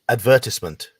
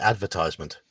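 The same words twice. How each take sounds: First: It is said the British way. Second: It is said the American way. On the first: "we say advertisement" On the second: "Americans would say advertisement"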